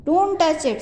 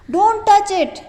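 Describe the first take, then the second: First: High, loud warning cry; shouted. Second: High, loud shout of warning. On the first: Teacher repeating the boy's warning, shouting. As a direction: call out to stop him. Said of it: "So it is a shocking sentence". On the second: Teacher reading the boy's warning, shouting. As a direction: yell it to stop him. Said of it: "shouted the boy". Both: Shown as a demonstration.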